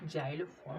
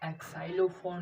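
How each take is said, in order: First: The word begins with a 'z' sound. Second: The word begins with a 'ks' sound. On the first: The speaker calls it right. "जाइलोफोन पढ़ेंगे" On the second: The speaker calls it wrong. "इसको एक्साइलोफोन नहीं पढ़ेंगे"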